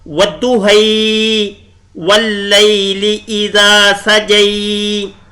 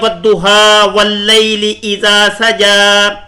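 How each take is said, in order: First: The final vowels lean toward an 'e' sound. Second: The final vowels sound like a plain open 'a'. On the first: This is the Warsh reading used by some reciters. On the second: This is the familiar Hafs reading.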